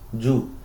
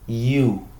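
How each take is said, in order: First: It starts with a hard Spanish-style y consonant. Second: It starts with a soft vowel-like i glide. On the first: The speaker calls it wrong. "como si fuesen a decir lluvia, como si fuesen a decir yuca" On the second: The speaker calls it right. "con la vocal i y posteriormente la vocal u"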